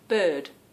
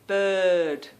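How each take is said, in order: First: The word is said at a normal length. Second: The word is drawn out, mimicking her husband.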